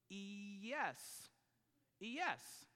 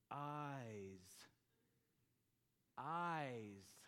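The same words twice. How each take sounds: First: "E S" said as two syllables, ee-YESS; mispronounced "eyes". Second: "Eyes" as one long syllable, like "ize", pitched low; correctly read "eyes". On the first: Father sounding out the spelling for his daughter, mispronounced ee-YESS. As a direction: sound out "E S" wrongly as a drawn ee plus yes. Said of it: "Well, what does that spell?". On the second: Father finally seeing it on paper, "Eyes" in one low syllable. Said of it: "he sees that and he goes". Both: Retold or imitated.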